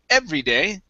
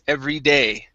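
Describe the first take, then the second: First: The stress falls on the first word. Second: The stress falls on the last word. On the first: The speaker calls it wrong. "instead of every day" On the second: The speaker calls it right. "emphasize here at the end"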